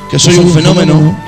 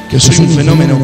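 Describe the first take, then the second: No difference in how they are said.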